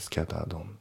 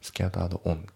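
First: The two words are linked together. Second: The two words are said separately. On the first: The speaker calls it right. "scattered on のところがリンキングで" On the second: The speaker calls it wrong. "scattered on じゃなくて"

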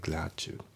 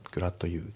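First: The d and you merge into a ch sound. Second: The d and you are kept separate. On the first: The speaker calls it right. "リンキングでグラッチュ" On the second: The speaker calls it wrong. "グラッドU じゃなくて"

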